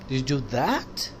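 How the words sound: The stress is on the word that. Asking whether that specific thing was done. "वो किया आपने"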